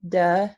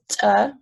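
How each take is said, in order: First: The stop is released with the voice buzzing. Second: The stop is released with a glottal catch. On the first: "and then voiced"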